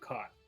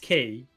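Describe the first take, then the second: First: The name rhymes with 'sky'. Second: The name rhymes with 'see'. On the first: This is a deliberate joke pronunciation. "but I'm calling him Kai" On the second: This is the standard pronunciation of the spelling. "correct pronunciation is Key"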